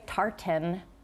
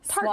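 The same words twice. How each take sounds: First: The second syllable is fully pronounced with a vowel. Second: The second syllable is swallowed into a syllabic N. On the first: The speaker calls it wrong. "To say tartan is incorrect" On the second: The speaker calls it right. "Swallow that that second syllable, and it's as if it's T A R T N"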